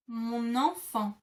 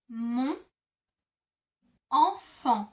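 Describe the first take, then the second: First: "Mon enfant" glued with an N sound carried onto "enfant"; linked liaison. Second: Mon, pause, enfant, each said on its own without linking; split into syllables. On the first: Teacher to learners, showing the liaison slowly. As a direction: run "Mon" straight into "enfant" so it sounds like mo-nenfant. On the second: Teacher to learners, breaking the words apart slowly. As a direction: say "Mon" then stop before "enfant" so no N joins them. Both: Shown as a demonstration. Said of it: "you kind of glue the two together".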